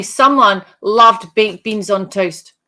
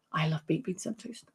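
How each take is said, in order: First: Said in the usual way. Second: A near-silent murmur, lower and much softer; hushed spirit voice. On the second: Pretend. Medium softly voicing the spirit for Mary, hushed. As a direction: voice the spirit's line low and hushed, almost a whisper.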